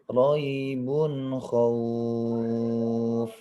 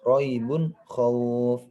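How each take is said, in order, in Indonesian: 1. Vokalnya dibaca panjang. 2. Vokalnya hanya dibaca sebentar. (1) "Intinya harus agak panjang karena dia di akhir kata, di akhir ayat" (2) "kalau dia tidak di akhir kata maka pendek"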